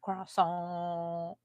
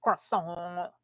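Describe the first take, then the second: First: Croissant said with a French nasal ending, no R; mock-French Croissant, soft. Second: Croissant said with a rolled R and extra vowel; Croissant attempt. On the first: Trying out the word French-style, soft mock-French pronunciation. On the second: Repeating the word again, careful foreign pronunciation. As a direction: another go at Croissant, more careful. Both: Shown as a demonstration.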